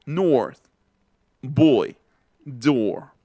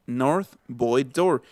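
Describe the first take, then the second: First: Put-on long, round back O in "North, boy, door", each falling; inner, backed O. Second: Put-on "north, boy, door" with O placed forward; short front O in "north, boy, door", run together; wrong front O. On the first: Teacher models the inner O, "North, boy, door". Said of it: "es como una O más interior". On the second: Teacher shows what not to say, forward O in "north, boy, door". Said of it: "no es una O que esté colocando aquí adelante". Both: Shown as a demonstration.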